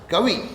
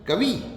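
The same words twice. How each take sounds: First: The final vowel is short. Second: The final vowel is long. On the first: The speaker calls it right. "छोटी" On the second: The speaker calls it wrong. "बड़ा ई वाला नहीं"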